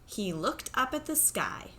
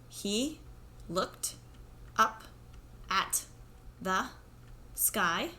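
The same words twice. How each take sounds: First: The words flow together like natural talking. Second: Each word is said separately with pauses between. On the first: The speaker calls it right. "put your words together so it sounds like talking" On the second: The speaker calls it wrong. "one word at a time like this"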